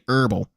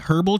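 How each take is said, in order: First: The word begins with a vowel, h dropped. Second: The word begins with an audible h sound. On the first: "or just say herbal" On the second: "with an H"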